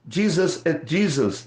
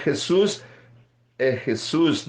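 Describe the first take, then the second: First: Jesus said as English "Jeezus", with a dz onset. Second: Jesus said as "Hesús", with a Spanish rasped h; Spanish Jesús. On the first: (Jesus pronunciado em inglês, "Djízus") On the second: (Jesus pronunciado à espanhola, "Hesús") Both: Shown as a demonstration.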